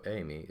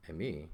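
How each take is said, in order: First: "emi" stressed on the first syllable, EImi; accent contrast, "to go". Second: "emi" stressed on the last syllable, eiMI; accent contrast, "to be". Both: Shown as a demonstration. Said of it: "by its accent placement".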